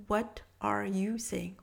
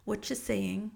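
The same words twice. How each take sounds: First: "what are you saying" slow, every word said; full careful form. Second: "what you saying" run together fast, no "are"; contracted speech. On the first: Teacher giving the full form, "what are you saying" said slowly. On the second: Teacher showing quick spoken English, "what you saying" contracted. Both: Shown as a demonstration. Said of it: "on va dire".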